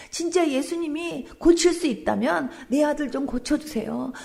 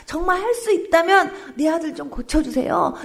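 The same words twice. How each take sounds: First: Said in the usual way. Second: A louder, higher repeat of the plea, 할 pressed hard. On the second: Retold or imitated. Pastor retelling father begging Jesus, louder and higher. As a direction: push the plea up, begging harder. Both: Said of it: "막 애원을 한 거예요".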